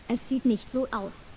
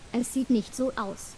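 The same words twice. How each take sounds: The two takes are said the same way.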